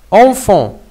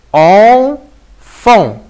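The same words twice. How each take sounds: First: Said in the usual way. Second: "enfant" as a long, loud "en", pause, then "fant"; split into syllables. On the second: Shown as a demonstration. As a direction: sound out "en... fant" slowly. (« enfant » syllabe par syllabe, « en… fant ») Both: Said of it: "si on va le diviser en syllabes".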